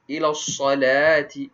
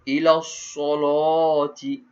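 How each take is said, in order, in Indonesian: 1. Bunyi l-nya tipis. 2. Bunyi l-nya tebal. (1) "Kita di Malaysia kita baca Hafs an Asim" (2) "Dia akan tebalkan lam tersebut"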